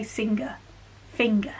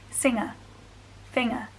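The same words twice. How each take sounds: First: "singer, finger" with a hard g sounded after the ng; no NG coalescence. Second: "singer, finger" as said elsewhere in the UK, g silent; NG coalescence. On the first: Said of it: "and we say". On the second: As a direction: drop the g sound after ng in "singer, finger". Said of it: "but they'll say". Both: Shown as a demonstration.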